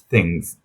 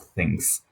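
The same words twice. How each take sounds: First: The final consonant is a buzzing z sound. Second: The final consonant is a hissing s sound. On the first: The speaker calls it right. "the plural of thing is things" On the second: The speaker calls it wrong. "not things"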